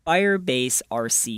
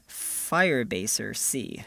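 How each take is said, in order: First: Said in the usual way. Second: "Firebase R C" run together, the R reduced to "er"; pet pronunciation. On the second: Shown as a demonstration. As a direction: slowly blend "Firebase R C" into one name, like "Firebaser-see". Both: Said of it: "or as I like to call it".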